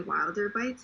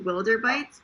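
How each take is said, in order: First: The first vowel sounds like the one in 'wild'. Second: The first vowel sounds like the one in 'will'. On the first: The name is read as the ordinary word wilder. "I know Wilder is a word and people usually say" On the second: The name comes from the word wilderness. "I initially wanted it to be"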